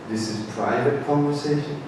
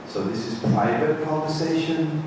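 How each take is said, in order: First: Soft, hushed repeat; quiet private tone. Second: Soft, hushed remark; quiet private tone. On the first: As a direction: say it again just as softly. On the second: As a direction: keep it between us at the table. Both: Shown as a demonstration. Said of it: "talking like this".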